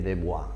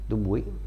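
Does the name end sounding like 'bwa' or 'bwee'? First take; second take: bwa; bwee. First: The name ends with a 'bwa' sound. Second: The name ends with a 'bwee' sound. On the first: The speaker calls it wrong. "leggendolo così io mi veniva a dire Dubois" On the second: The speaker calls it right. "l'ho pronunciato bene oggi"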